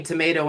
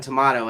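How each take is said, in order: First: Tomato said to-MAY-to; tomato with an AY in the middle; American pronunciation. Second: Tomato said to-MAH-to; tomato with an AH in the middle; alternate pronunciation. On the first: Host compares two ways, tomato as to-MAY-to. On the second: Host compares two ways, tomato as to-MAH-to. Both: Shown as a demonstration. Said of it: "it's like saying tomato and tomato".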